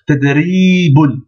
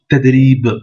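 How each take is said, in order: First: The word ends with an added 'un' syllable. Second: The word stops short on its final consonant. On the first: "c'est marqué tadribun" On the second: "il est mieux de dire tadrib, on bloque la dernière lettre"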